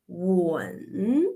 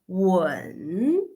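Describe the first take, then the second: The two takes are said the same way.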